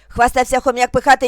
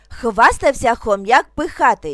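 First: It is spoken at a very fast pace. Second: It is spoken at a somewhat quicker pace. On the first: "дуже швидко" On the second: "трошки швидше"

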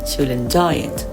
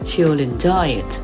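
First: She'll has a short i vowel. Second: She'll has a long ee vowel. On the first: The speaker calls it right. "แต่ครูจะพูดว่า" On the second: The speaker calls it wrong. "และครูจะไม่พูดว่า"

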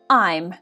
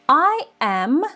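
First: The words are squeezed into one short syllable. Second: Both words are said fully as two syllables. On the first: "contraction, скорочення" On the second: "форма be повна"

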